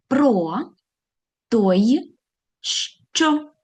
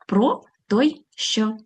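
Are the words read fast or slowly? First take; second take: slowly; fast. First: The words are read slowly. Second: The words are read faster. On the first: "Спочатку повільно" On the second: "А тепер швидше"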